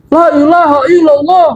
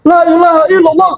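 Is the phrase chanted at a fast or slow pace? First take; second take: slow; fast. First: The phrase is said at a slower pace. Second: The phrase is said at a faster pace.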